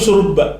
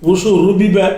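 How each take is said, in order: First: The identical consonants merge into one doubled consonant. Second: The two identical consonants are pronounced separately. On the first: This is the changed, contracted form. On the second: This is the original underlying form.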